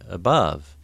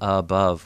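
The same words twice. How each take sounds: First: The first vowel is weak and reduced. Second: The first vowel is full, like in hut. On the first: This is the everyday way of saying it. "But normally I say above" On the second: The speaker is clarifying for someone who misheard. "I might say above when I'm trying to help someone who misunderstood what I was saying"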